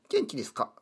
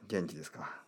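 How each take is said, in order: First: It is said in a high, childlike put-on voice. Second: It is said in a natural adult speaking voice. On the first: "ちょっと声が変ですね。子ども広場の声でしばらく話してみようと思います。" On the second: "まあそろそろやめましょうか。"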